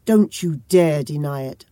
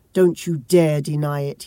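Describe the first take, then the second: First: Understated yell pressed harder; a hint more force on the repeat; mild mock yell, a bit louder. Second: A touch of a yell, dont stressed; understated furious yell; mild mock yell. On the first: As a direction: yell it again, a little louder. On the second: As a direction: yell it lightly at her. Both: A narrator's reading. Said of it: "he yelled".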